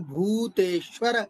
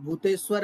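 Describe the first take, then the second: First: Short and long vowels are kept clearly distinct. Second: Short and long vowels are blurred together. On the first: The speaker calls it right. "उच्चारण में हमें ह्रस्व और दीर्घ का भी ध्यान रखना है" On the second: The speaker calls it wrong. "भूतेश्वर नहीं बोलेंगे"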